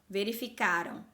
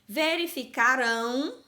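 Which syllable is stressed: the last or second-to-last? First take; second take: second-to-last; last. First: The stress is on the second-to-last syllable. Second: The stress is on the last syllable. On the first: The action happened in the past. "quando eu tenho o verbo no passado, a sílaba forte é a penúltima" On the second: The action will happen in the future. "Olha como está bem forte a pronúncia dessa sílaba"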